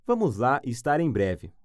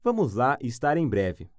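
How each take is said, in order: Both takes have the same delivery.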